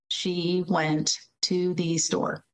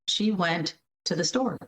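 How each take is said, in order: First: It is read slowly, word by word. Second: It is read fluently with natural reduced words.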